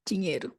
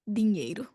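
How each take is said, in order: First: The d is softened to a 'dj' sound. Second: The d is a plain tongue-tip 'd' sound. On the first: The speaker is from São Paulo. "So speak between our teeth" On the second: The speaker is from the north or northeast. "they might speak a little bit more with the tip or the tongues"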